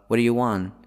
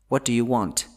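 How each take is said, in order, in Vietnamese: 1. Âm t cuối bị lược bỏ. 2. Âm t cuối được bật hơi rõ ràng. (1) "mình sẽ không đọc cái âm t đấy nữa" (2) "đó là cái cách nói chuẩn, dễ nghe"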